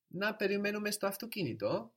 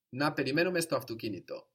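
First: Να περιμένουμε στο αυτοκίνητο high throughout, rising at the end; question intonation. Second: Να περιμένουμε στο αυτοκίνητο said briskly, falling at the end; affirmative tone. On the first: Teacher models "shall we wait in the car", question intonation. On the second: Teacher models "let's wait in the car", affirmative tone. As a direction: suggest Να περιμένουμε στο αυτοκίνητο quickly and firmly, dropping on αυτοκίνητο. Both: Shown as a demonstration. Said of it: "tune in to the tone of voice".

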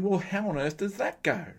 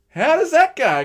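First: Said in the usual way. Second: High, loud, baffled cry; exasperated shout. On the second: Retold or imitated. Preacher voicing bafflement at the odd route home, shouting. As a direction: throw the question up in disbelief. Same puzzled question, shouted.

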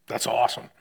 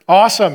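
First: Said in the usual way. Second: Awesome shouted loud and high, falling; excited awesome. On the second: Pretend. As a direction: belt out Awesome like a cheer. Mock excited reaction to baby.

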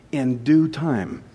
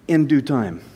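First: In due time, drawn out slowly and softer; slow, soft repeat. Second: Said in the usual way. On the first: Shown as a demonstration. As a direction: let "In due time" sink in, slow and quiet.

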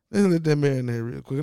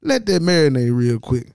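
First: Said in the usual way. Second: Loud, emphatic. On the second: Real, not acted. Telling viewers to ponder, loud emphatic. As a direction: let that marinate said loud and firm. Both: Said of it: "repeated line".

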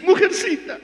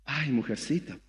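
First: High mock "Mujercita"; lightly acted insult; mocking quote. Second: Soft, low mock sigh "Ay, mujercita"; mocking pitiful whimper; whiny self-pity. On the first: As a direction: toss "Mujercita" up high and teasing. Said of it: "¿Qué te dice?". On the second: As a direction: sigh it out like a wounded victim. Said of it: "¿Y qué eres?".

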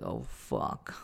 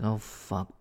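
First: A breathy whispered oh fuck; whispered curse. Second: Said in the usual way. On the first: Retold or imitated. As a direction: whisper it, mortified. Embarrassed while people watch.

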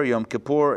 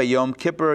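First: Kippur stressed on the last syllable, ki-POOR; stress on PUR. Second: Kippur stressed on the first syllable, KIP-per. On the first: Teacher shows the other stress of Kippur, ki-POOR. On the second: Teacher shows one way to stress Kippur, KIP-per. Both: Shown as a demonstration. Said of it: "depending on where you put the emphasis".

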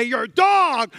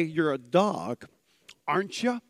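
First: Loud, higher, harsh accusation; insulting shout. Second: Affectionate teasing. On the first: Preacher showing how context changes words, DOG shouted as insult. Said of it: "You can say". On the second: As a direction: say it fondly, like to a pet. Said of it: "or you can say". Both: Shown as a demonstration.

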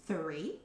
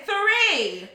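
First: Small, quiet, rising query; tentative question. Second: High, loud one-word retort; exasperated shout. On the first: Customer answering a confused waitress, quietly questioning. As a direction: answer low and unsure, lifting at the end. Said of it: "she almost had an argument with me". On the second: Customer arguing with a waitress over table size, exasperated shout. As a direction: fire the answer back loud and high. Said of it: "kind of screaming at each other". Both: Retold or imitated.

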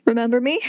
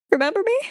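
First: Said in the usual way. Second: Much higher, desperate plea; high-pitched appeal on "Remember me?"; pleading squeak. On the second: Acted. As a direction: beg for recognition in a high squeak.

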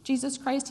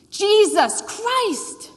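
First: Higher-pitched, unshouted naming of whom you worship; mock worshipful declaration. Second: Loud, high, drawn-out exasperated cry; exclaimed oath. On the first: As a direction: proclaim the name as if in worship. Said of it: "this is who I worship". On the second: Retold or imitated. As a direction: blurt the name as a shouted expletive. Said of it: "the father evokes the name".

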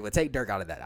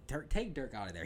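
First: Louder, worked-up outburst; real excitement spilling over; a little excited. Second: Said in the usual way. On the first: Real, not acted. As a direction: blurt it out, carried away by the point. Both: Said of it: "I got a little excited".

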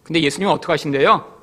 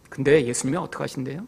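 First: Said in the usual way. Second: Softly repeated rhetorical question; quieter repeat of the question. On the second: Shown as a demonstration. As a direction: lower and softer, 근데 leaning forward.

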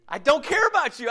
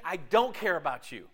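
First: Higher and louder, care punched hard; emphatic repeat. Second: Said in the usual way. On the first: Retold or imitated. Preacher repeating the selfish partner's words to the congregation, higher and louder. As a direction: hammer home "care" in "I don't care about you".

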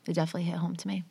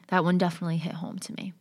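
First: Repeated under her breath, softer; whispered echo. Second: Said in the usual way. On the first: Real, not acted. Repeating it quietly to herself, whispered. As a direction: let it fade to a whisper. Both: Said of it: "I'm getting emotional".

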